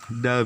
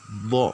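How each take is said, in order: First: The d sound is plain and light. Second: The d sound is heavy and deep. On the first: The speaker calls it wrong. "jangan da biasa" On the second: The speaker calls it right. "ini harus do, do. Berat dia"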